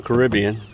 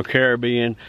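First: "Caribbean" stressed on RIB, kuh-RIB-ee-un; alternative pronunciation. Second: "Caribbean" stressed on BE, kair-uh-BEE-un; alternative pronunciation. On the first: Angler naming his paddleboard's color, alternative pronunciation. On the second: Angler offering the other way to say the color, alternative pronunciation. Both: Shown as a demonstration. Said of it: "tomato, tomato".

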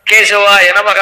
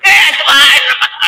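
First: Said in the usual way. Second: Strained high croak, slow and drawn out; scratchy dry throat. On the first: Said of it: "గీచు గొంతు". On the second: Shown as a demonstration. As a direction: croak it like a parched throat that had no water. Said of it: "వాడు ఏమన్నాడో తెలియదు, గీచు గొంతు". (ఎండిన గొంతుతో గరగరలాడుతూ, సాగదీసి)

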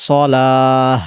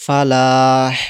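First: সলাহ ending in a strong breathy h; louder সলাহ with heavy h; big final ha. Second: ফালাহ ending in a light h; ফালাহ with a faint closing h; small final ha. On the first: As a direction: end সলাহ with a full h. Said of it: "বড় হা উচ্চারণ হবে". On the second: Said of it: "ছোটো হা উচ্চারণ হবে". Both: Shown as a demonstration.

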